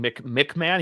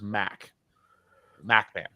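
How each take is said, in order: First: The name begins with a short 'mick' sound. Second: The name begins with a 'mack' sound. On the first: The speaker calls it wrong. "instead of being Mick McMahon" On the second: The speaker calls it right. "he prefers Mac MacMan"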